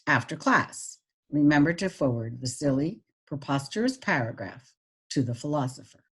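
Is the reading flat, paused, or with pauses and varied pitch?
paused. It is read with pauses but little pitch change. "with the pauses"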